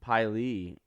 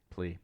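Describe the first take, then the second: First: The name begins with a plain L sound. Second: The name begins with a PL sound. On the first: The speaker calls it wrong. "I've always just pronounced it Lee" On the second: The speaker calls it right. "plea, sorry"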